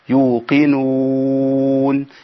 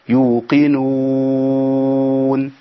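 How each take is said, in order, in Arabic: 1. يُمَدّ حرف المد أربع حركات. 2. يُمَدّ حرف المد ست حركات. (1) "2 او 4 او 6" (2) "2 او 4 او 6"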